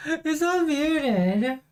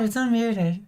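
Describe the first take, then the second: First: Slow, high, stretched in disbelief; drawn-out disbelief. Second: Said in the usual way. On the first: Real, not acted. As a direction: say it slowly, stunned.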